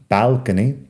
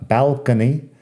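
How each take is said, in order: No difference in how they are said.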